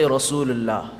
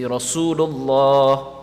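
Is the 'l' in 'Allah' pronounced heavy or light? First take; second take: light; heavy. First: The l in Allah sounds thin and light. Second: The l in Allah sounds full and heavy. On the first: The speaker calls it wrong. "You don't say Rasulullah" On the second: The speaker calls it right. "You say Rasulullah"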